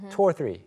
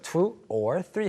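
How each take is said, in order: First: 'Two' and 'or' run together smoothly. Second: 'Two' and 'or' are said as separate words. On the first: The speaker calls it right. "실제 발음할 때는 two하고 or가 좀 합쳐져요" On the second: The speaker calls it wrong. "진짜로 이거를 two or three 하는 사람 별로 없어요"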